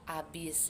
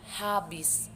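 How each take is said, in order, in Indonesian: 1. Kata ini diawali tanpa bunyi h. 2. Kata ini diawali dengan bunyi h. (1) "sering banget uh, orang-orang itu mengatakan abis gitu ya" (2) "tapi lafal yang baik itu uh, habis gitu"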